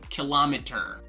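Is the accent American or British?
British. It is said in a British accent. "in British English, we say kilometer"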